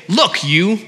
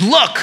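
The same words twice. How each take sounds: First: "Look" leaned on and rising, "you" tacked on dismissively. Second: A short, higher, rising "Look" tossed at his father; curt disrespectful look. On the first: Son addressing father like a servant, dismissively. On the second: Son snapping at his father, curt and disrespectful. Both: Retold or imitated. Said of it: "impersonal and disrespectful".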